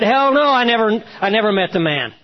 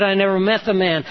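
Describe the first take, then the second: First: Cursing denial. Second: Said in the usual way. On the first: Retold or imitated. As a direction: bark the denial like a cornered man swearing. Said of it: "with cursing pouring out of his lips". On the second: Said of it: "Three times he had said".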